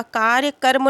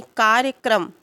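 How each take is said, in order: First: कार्यक्रम said as kaarya-karm; misplaced r. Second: कार्यक्रम said as kaarya-kram; correct kr cluster. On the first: Teacher showing the wrong word, कार्यक्रम ending in karm. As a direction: move the R in कार्यक्रम after the vowel, ending -karm. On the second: Teacher correcting the word, कार्यक्रम ending in a clear kram. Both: Shown as a demonstration. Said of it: "कार्यक्रम नहीं होता है".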